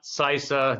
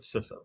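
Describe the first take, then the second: First: The first vowel is long, as in 'see'. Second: The first vowel is short, as in 'sit'. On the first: The speaker calls it wrong. "not CISA" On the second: The speaker calls it right. "but CISA, even though there's only one S"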